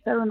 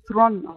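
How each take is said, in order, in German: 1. Der Name wird mit zwei Silben gesprochen. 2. Der Name wird mit einer Silbe gesprochen. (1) "man spricht es gar nicht Theron aus" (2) "Man spricht es Thron aus"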